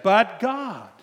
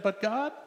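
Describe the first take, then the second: First: Loud, high protest; louder, higher protest against God; arguing with God. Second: Said in the usual way. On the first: Retold or imitated. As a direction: cry out the objection. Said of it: "And I said". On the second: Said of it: "Anybody ever said".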